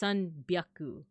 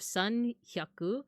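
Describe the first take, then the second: First: The second part starts with a b sound. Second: The second part starts with an h sound. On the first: The speaker calls it right. "it's sanbyaku" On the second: The speaker calls it wrong. "instead of sanhyaku"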